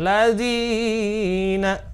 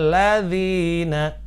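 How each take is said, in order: First: The long vowel is stretched well beyond normal length. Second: The long vowel is held for two counts. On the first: The speaker calls it wrong. "nggak boleh lebih dari dua harokat. Misalkan ladzina, salah" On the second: The speaker calls it right. "Maka kita membacanya ladzina"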